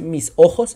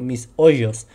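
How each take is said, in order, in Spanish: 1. La consonante en ojos es un sonido gutural fuerte. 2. La consonante en ojos suena como una y. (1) "no dice mis ojos" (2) "sino mis hoyos"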